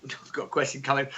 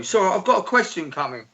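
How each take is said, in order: First: Deeper, softer radio host voice. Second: Said in the usual way. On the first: Shown as a demonstration. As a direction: announce it like a radio DJ. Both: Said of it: "I can really sound like a fucking radio host".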